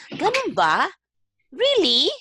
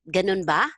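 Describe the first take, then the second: First: High-pitched, surprised questioning; demonstrating surprise, pitched well up; surprised reaction. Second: Said in the usual way. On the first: Shown as a demonstration. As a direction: act out an astonished "really?". Acting out the common expression.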